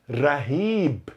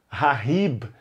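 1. O R é um toque leve e único. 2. O R é um som forte e gutural. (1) "esse R de orelha" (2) "Se você falar que ra, como na palavra rato, vai sair errado. Rahib tá errado"

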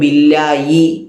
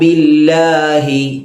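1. മധ്യത്തിലെ അക്ഷരം y ശബ്ദമാണ്. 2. മധ്യത്തിലെ അക്ഷരം h ശബ്ദമാണ്.

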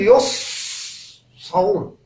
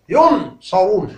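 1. لا تُنطق النون إطلاقاً. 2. تُنطق النون كاملة وواضحة. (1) "لا أستطيع أن أقول يصرون وأخفي النون، لا يجوز، نطق خاطئ" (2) "ليس أظهرها بكل قوة، مثلا أقول ينصرون، ينصرون، هذا خطأ"

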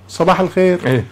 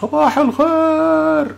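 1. التحية تُقال بالطول العادي. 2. التحية ممدودة ومطوّلة. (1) "أنا وأنت هون نحكي صباح الخير" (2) "مشان يصلوا الصوت"

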